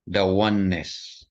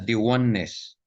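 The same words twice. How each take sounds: First: 'The' is said with a short 'uh' vowel. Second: 'The' is said with a long 'ee' vowel. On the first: The speaker calls it right. "kundi the oneness" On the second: The speaker calls it wrong. "Hindi mo naman sabihin na"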